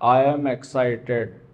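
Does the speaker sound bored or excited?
bored. It is said flatly, without enthusiasm. The speaker is not really excited.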